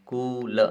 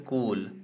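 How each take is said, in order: First: कूल with a long, drawn-out oo; long oo demo. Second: Said in the usual way. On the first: Shown as a demonstration. Teacher shows students the long oo in कूल. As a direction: stretch the ऊ in कूल slowly. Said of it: "उसका sound आ रहा है बड़ा ऊ". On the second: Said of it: "कूल ऐसा".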